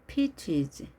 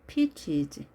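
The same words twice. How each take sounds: Both takes have the same delivery.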